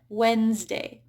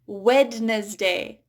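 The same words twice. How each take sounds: First: No D sound is heard before the N. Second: A D sound is heard before the N. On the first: The speaker calls it right. "the first D there is just silent" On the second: The speaker calls it wrong. "I often hear uh, non-native speakers say"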